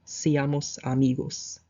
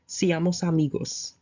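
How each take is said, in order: First: Slow repeat. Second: Said in the usual way. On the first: Shown as a demonstration. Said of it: "Let's be friends". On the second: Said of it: "Let us be".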